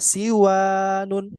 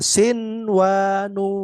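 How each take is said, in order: First: The n sound blends into the following w. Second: The n sound is pronounced clearly before w. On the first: The speaker calls it wrong. "Itu itu contoh uh, bacaan yang salah" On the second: The speaker calls it right. "Nunnya dibaca jelas"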